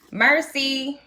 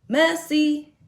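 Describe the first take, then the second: First: "Merci" said MUR-see with an American R; higher-pitched "Merci", r sounded in the first syllable; uncorrected French merci. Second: "messy" said as MUH-see, no R; slow, high "messy" for merci, r dropped; corrected French merci. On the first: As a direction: pronounce "Merci" with a hard English er. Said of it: "They had to correct me". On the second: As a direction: stretch "messy" out like mussy. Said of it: "but it's, it's mussy". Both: Shown as a demonstration.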